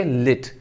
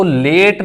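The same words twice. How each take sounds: First: "लिट" with short i, like lit; correct pronunciation. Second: "लेट" with long vowel, like late; mispronunciation. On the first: Teacher corrects students, short-vowel "लिट". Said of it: "बल्कि लिट". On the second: Teacher rejects the error, long-vowel "लेट". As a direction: stretch the e in "लेट". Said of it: "इसको लेट नहीं पढ़ना". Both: Shown as a demonstration.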